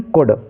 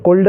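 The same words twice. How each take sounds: First: "कुड" with no l; "कुड", short u then d; silent L. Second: "कुल्ड" with an l before the d; faulty "कुल्ड", could with a clear l; wrongly voiced L. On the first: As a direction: correct it to "कुड", L dropped. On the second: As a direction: sound the L in "कुल्ड" as a mistake. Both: Shown as a demonstration. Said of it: "कुल्ड नहीं".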